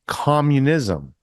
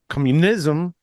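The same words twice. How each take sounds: First: The stress falls on the first syllable. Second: The stress falls on a later syllable. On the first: The speaker calls it right. "the accent is on the first syllable, right? So it's Kamala, like communism" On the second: The speaker calls it wrong. "We don't say communism"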